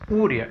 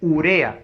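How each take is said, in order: First: The stress is not on the second syllable. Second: The stress is on the second syllable. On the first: The speaker calls it wrong. "no es urea" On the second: The speaker calls it right. "la fuerza de voz está en la are"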